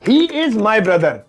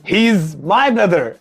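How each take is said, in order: First: The words 'he is' are said separately. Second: The words 'he is' are joined as 'he's'. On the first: The speaker calls it wrong. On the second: The speaker calls it right.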